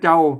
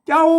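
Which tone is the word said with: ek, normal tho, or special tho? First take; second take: ek; special tho. First: The word is said with the ek tone. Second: The word is said with the special tho tone. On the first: "เอกนะเสียงเอกนะ" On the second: "อันใส่จุดเจ้าเสียงโทพิเศษ"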